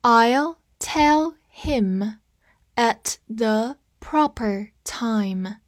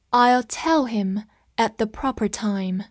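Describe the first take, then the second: First: Very slow, word by word; slow teacher read-along. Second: Said in the usual way. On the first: Shown as a demonstration. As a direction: stretch it out for learners to repeat. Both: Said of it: "跟我慢读一遍".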